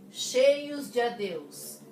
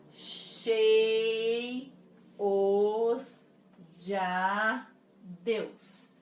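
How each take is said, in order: First: "Cheios de adeus" slow but connected, de running into adeus; "Cheios de adeus" joined, as djadeus; verse read whole. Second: "Cheios de adeus" broken into chei - os - dja - deus; "Cheios de adeus" very slowly split, "de a" as one syllable; syllable-by-syllable scansion. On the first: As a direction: read "Cheios de adeus" as one raised, louder line. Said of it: "E e a. Conto uma sílaba só". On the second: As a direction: hold each beat of "Cheios de adeus" with pauses between. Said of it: "Conto uma sílaba só". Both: Shown as a demonstration.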